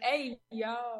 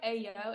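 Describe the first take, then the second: First: The word is said with exaggerated enthusiasm. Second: The word is said flatly, without enthusiasm. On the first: The speaker reacts sincerely to something odd. The speaker calls it right. "You got to really exaggerate it. It's got to be like" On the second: The speaker sounds sarcastic and is not taken seriously. The speaker calls it wrong. "if you just say it like that, nobody's going to take you seriously"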